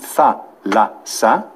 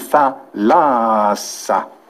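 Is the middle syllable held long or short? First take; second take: short; long. First: All three syllables are equally short. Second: The middle syllable is held twice as long. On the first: The speaker calls it wrong. "δεν θα πει" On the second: The speaker calls it right. "η ενδιάμεση συλλαβή θα μακρύνει"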